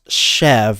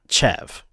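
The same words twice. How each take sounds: First: The word begins with a soft 'sh' sound. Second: The word begins with a hard 'ch' sound. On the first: The speaker calls it right. "The C H is an S H sound, so it's Chev" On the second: The speaker calls it wrong. "not Chev"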